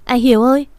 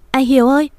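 First: Louder, desperate cry of his name; frantic wailing call. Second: Louder, desperate cry, pitch climbing higher; the second cry breaks higher, out of control; frantic wailing call. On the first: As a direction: call out to him as if losing your mind. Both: A narrator's reading. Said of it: "như phát điên gào thét".

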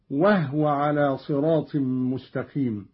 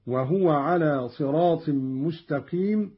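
First: وهو with a vowelless ha, "wahwa"; Qalun's silent-vowel ha. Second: Said in the usual way. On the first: Shown as a demonstration. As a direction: close وهو to two syllables, "wah-wa". (وهو بإسكان الهاء) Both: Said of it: "وكذا قوله تعالى".

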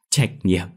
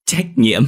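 First: Restrained, hollow "Trách nhiệm"; bitter echo. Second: Louder, higher "trách nhiệm"; bitter emphatic echo. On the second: Mother throwing her son's word back, indignant louder "trách nhiệm". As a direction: hit "trách nhiệm" hard, in bitter disbelief. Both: A narrator's reading. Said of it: "bà cười khổ đáp".

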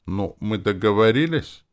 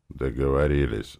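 First: Higher, rising conciliatory question. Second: Said in the usual way. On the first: A narrator's reading. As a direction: ask hopefully to settle it. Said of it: "спросил примирительно". (примирительно, с вопросом)

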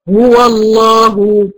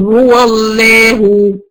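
First: هو الله said slowly with a full, heavy emphatic lam; correct heavy lam. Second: هو الله said slowly with a light, thin lam in الله; deliberately thin the lam of الله in هو الله; wrong thin lam. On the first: Teacher showing the student the right way, heavy lam. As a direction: thicken the lam of الله after هو. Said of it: "أما أقول". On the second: Teacher showing the student a mistake, thin lam. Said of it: "ما ينفعش أقول". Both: Shown as a demonstration.

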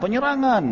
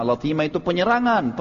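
First: Shouted cry. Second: Said in the usual way. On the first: Retold or imitated. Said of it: "Dia teriak".

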